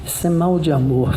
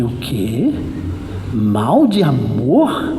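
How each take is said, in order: First: Said in the usual way. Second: Low, drawn-out question swooping up at the end; incredulous echo. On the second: Retold or imitated. Preacher reacts to talk of lovesickness, incredulous. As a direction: echo it slowly in mock disbelief. Echoes the diagnosis in disbelief.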